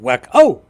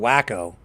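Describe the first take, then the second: First: It has a French accent with a final inflection. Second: It has a plain English accent. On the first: "if you're saying it with a French accent, ... you see it's the inflection at the end" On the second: "if you're just calling him a wacko, like an like a simpleton anglophone like myself"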